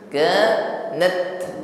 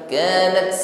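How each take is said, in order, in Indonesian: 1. T di akhir punya hembusan napas yang pendek dan biasa. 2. T di akhir punya desisan yang panjang. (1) "nafas pada huruf ta ini tidak memanjang" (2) "bukan bunyi desis, bukan kanat"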